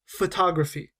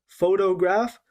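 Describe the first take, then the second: First: "photography" with the second syllable TOG stressed. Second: "photograph" with the first syllable PHO stressed. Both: Shown as a demonstration. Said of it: "we're stressing different parts".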